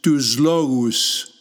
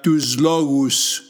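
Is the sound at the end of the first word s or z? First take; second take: z; z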